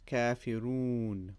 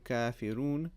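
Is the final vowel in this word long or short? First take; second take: long; short. First: The final vowel is held for about two seconds. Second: The final vowel is short and clipped. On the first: The speaker calls it right. "we say kafirun. Un. Two seconds" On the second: The speaker calls it wrong. "We don't say"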